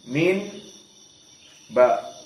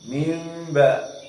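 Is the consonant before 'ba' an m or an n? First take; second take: n; m. First: The word ends with a clear n before ba. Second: The word ends with an m before ba. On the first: The speaker calls it wrong. "dibaca jauh" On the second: The speaker calls it right. "dimasukkan kepada mim"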